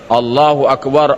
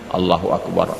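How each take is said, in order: First: It is said loudly, in a full voice. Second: It is said very quietly, under the breath. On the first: It could be heard from outside. "Pasti suara mengucapkannya" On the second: It could not be heard from outside. "kalaulah dibacanya takbir itu dalam hati"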